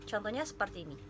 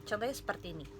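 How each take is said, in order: Both takes have the same delivery.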